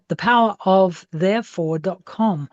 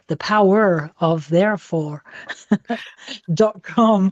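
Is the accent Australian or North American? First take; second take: Australian; North American. First: Australian accent, with the R sounds dropped. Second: North American accent, with the R sounds pronounced.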